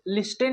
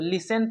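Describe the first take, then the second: First: The t is pronounced. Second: The t is silent. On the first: The speaker calls it wrong. "लिस्टेन नहीं पढ़ेंगे" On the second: The speaker calls it right. "लिसन में देखिए यहाँ पे T silent है"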